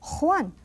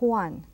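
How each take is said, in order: First: The J is a strong, harsh Madrid sound. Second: The J is soft, like English H.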